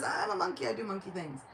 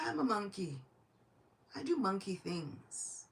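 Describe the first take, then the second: First: Brisk monkey reply. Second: Nonchalant monkey reply. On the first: Speaker resumes Hanuman's reply, quicker. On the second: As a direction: answer the shouting with lazy innocence. Hanuman answers the shouting minister. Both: Acted.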